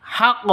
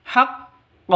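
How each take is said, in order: First: Haqq with the final q cut flat; wrong plain ending. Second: Haqq with the final q bounced out; Haqq, final q released with a rebound; bouncing qalqalah. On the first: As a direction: end haqq dead, with no bounce. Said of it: "Bukan seperti itu". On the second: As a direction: end Haqq on an echoing q. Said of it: "cara bacanya seperti itu". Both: Shown as a demonstration.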